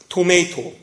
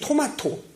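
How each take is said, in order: First: It is said with an English-style pronunciation. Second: It is said with a Korean-style pronunciation.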